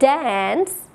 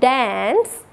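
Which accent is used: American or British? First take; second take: American; American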